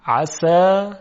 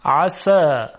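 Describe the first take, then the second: First: عسى with a thick, emphatic sad, back of the tongue pressed up; heavy sad sound. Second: عسى said with a light, delicate sin, tongue back relaxed; thin sin sound. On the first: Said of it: "کافی است که ما صدا رو درشت بکنیم". (عسى با صاد درشت و پر) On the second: (عسى با سین نازک و ظریف) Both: Shown as a demonstration.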